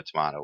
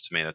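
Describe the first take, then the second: First: Tomato said with an "ah", to-MAH-to; broad "ah" in the middle of tomato; variant pronunciation. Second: Said in the usual way. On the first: Shown as a demonstration. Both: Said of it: "depending on where you're from".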